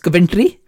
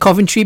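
First: It is said with a Punjabi Indian pronunciation. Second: It is said with a standard English pronunciation.

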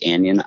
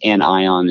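First: The word has its common everyday pronunciation. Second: The word has its scientific pronunciation. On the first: "a lot of people say anion" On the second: "the scientific way"

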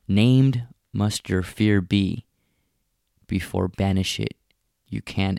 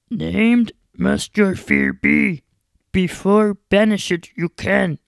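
First: It is said in the speaker's normal voice. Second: It is said in an imitated character voice. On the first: "This is a quote from Yoda" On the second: "I wish I can do his voice. I could try it"

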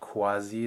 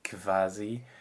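First: It starts with a K followed by W. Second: It starts with a K followed by V. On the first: "So it's not quasi" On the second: "It's not quasi"

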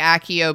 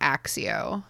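First: The double c does not sound like ks. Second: The double c sounds like ks. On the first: "I tend to say Accio because of the films" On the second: "I definitely pronounced this letter as if it were an X"

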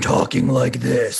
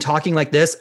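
First: It is said in a deep, gravelly voice. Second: It is said in a plain, normal voice.

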